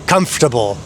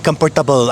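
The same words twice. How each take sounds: First: It is said with an American English accent. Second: It is said with a Filipino accent. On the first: This is the outsider's idea of correct. "ang tamang pagbigas" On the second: This is how the locals say it. "correcting people when they say um, comfortable ka ba"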